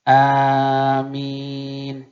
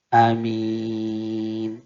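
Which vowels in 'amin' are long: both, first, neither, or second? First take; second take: both; second. First: Both vowels are drawn out long. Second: The first vowel is short, the second long. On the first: "panjang alif, panjang min" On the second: "pendek di depan, panjang di belakang"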